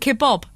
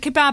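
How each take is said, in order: First: The second syllable has the vowel of 'bob'. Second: The second syllable has the vowel of 'bad'. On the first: This is how Americans say it. "Who says Kebob? Americans" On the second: This is the usual British form. "Maybe it's like kebab and kebob, where it depends where you're from"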